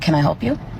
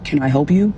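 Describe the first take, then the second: First: It is said in her own normal voice. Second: It is said in a put-on, imitating voice. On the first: The speaker calls it wrong. "Not like that" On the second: The speaker calls it right. "I got to show you how he did this"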